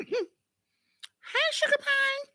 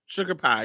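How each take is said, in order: First: High sweet cat call. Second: Said in the usual way. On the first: Shown as a demonstration. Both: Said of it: "In that high voice".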